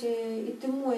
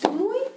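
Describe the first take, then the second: First: It is said softly and tenderly. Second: It is said sternly and commandingly. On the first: The speaker expresses affection. "когда это там нежно, зайчик" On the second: The speaker asserts ownership and control. "А когда это вот так сказал"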